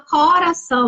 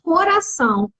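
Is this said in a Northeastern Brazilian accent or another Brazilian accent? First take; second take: Northeastern; another. First: Said in a Northeastern accent with heavier stress. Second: Said in a non-Northeastern Brazilian accent. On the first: "para a região Nordeste, o pessoal fala coração, né? Parece que tem um acento" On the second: "Nós falamos"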